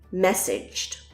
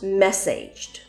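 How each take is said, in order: First: The last syllable sounds like 'idge'. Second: The last syllable sounds like 'age'. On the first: The speaker calls it right. "The A sound changes to an I sound" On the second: The speaker calls it wrong. "this word is not pronounced messaged"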